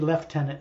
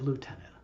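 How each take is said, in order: First: It is pronounced the British way, like leftenant. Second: It is pronounced the American way, like lootenant. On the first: "A British guy ... would always say lieutenant" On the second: "instead of"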